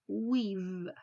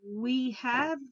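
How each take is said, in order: First: The words merge into one syllable ending in v. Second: Both words are said fully and separately.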